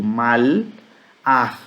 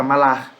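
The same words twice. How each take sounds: First: "Mal-ar" in two slow separate pieces; drawn-out "Mal... ar"; uncontracted form. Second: "malar" run together as one word; "malar" with no break between mal and ar; contracted form. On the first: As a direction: hold "Mal", then add "ar" apart. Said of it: "Mas há uma contração". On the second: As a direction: say "malar" quickly joined, ma-LAR. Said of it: "na contração, fica malar". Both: Shown as a demonstration.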